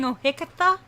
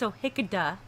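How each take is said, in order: First: The middle consonant is not a D sound. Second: The middle consonant is a D sound. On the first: The speaker calls it wrong. "I was saying Ohikatha, which is wrong" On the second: The speaker calls it right. "It's Ohikada with a D"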